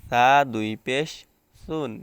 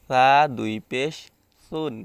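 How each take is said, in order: No difference in how they are said.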